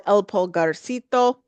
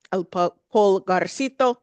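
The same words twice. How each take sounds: First: Said in the usual way. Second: Retry Pulgarcito with a careful Spanish accent. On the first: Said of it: "Sorry, I'll do a little bit better with the accent". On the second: Shown as a demonstration. Naming a favorite Central American restaurant, Spanish accent. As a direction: say Pulgarcito in an attempted Spanish pronunciation. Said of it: "do a little bit better with the accent".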